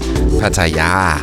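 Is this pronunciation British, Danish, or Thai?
Thai. It is said with a Thai pronunciation. "the Thai people themselves say Pattaya"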